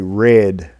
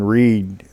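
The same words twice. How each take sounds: First: The word sounds like 'red'. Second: The word sounds like 'reed'. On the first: It is the past tense. The speaker calls it wrong. "So that's that's past tense" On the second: It is the present or future tense. The speaker calls it right. "present or future tense"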